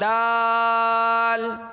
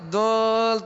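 First: The vowel is open, said with the mouth open. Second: The vowel is muffled, said with clenched teeth. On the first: The speaker calls it right. "دانتوں کو کھول کر آواز اور منہ کھولیں گے" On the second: The speaker calls it wrong. "دانتوں کو جما کر پڑیں گے نا دل تو آواز دب جائے گی"

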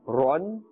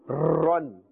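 First: The r sound is short and normal. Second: The r sound is stretched and prolonged. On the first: The speaker calls it right. "In the normal ma'roof, the normal manner, in a comfortable way" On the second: The speaker calls it wrong. "we will not prolong and stretch the sound of the letter ra. We must not say"

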